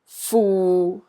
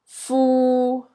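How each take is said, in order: First: The syllable is said in Cantonese tone six. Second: The syllable is said in Cantonese tone three. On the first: "A is tone six" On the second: "And D is tone three"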